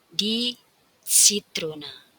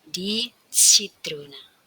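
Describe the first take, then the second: The two takes are said the same way.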